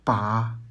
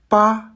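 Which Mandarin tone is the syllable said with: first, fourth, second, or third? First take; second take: third; first. First: The syllable is said with the third tone. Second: The syllable is said with the first tone. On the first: "Troisième ton" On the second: "Premier ton"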